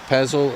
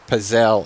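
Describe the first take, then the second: First: The ending does not rhyme with gazelle. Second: The ending rhymes with gazelle. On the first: The speaker calls it wrong. "I'm not quite saying it correctly" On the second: The speaker calls it right. "as in gazelle"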